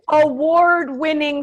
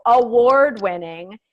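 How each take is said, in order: First: Said in the usual way. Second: Award-winning slowed and pushed louder; emphatic repeat. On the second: Real, not acted. Stressing to a friend that it was award-winning, emphatic. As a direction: lean hard on award-winning, stretching it. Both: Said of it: "mind you".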